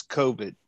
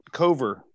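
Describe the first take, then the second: First: "covid" said as the virus name, KOH-vid; misnamed dog. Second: "Cover" said KUH-ver, ending in -er with no d; corrected name. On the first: Correcting the dog's name: "covid" said KOH-vid. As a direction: say "covid" with a clear final -vid. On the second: Correcting the dog's name: "Cover" said KOH-ver. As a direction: stress the corrected "Cover" clearly. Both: Shown as a demonstration. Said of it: "Cover, like Cover".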